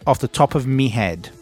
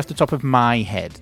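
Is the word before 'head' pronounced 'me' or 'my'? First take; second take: me; my. First: The word before 'head' sounds like 'me'. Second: The word before 'head' sounds like 'my'. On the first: It is a colloquial northern way of speaking. "Instead of saying my, we say me" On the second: It is the standard way of speaking. "she didn't say off the top of my head"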